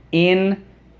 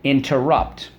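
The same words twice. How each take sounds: First: Syllable by syllable. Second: Said in the usual way. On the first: Shown as a demonstration. Teacher leading the class through interrupt, syllable by syllable. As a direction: interrupt split as IN... ter... rupt, starting high. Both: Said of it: "Let's go".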